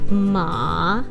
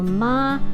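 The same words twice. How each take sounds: First: The pitch dips down then rises. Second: The pitch stays level and flat. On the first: "the third tone is going down and up" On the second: "the flat tone"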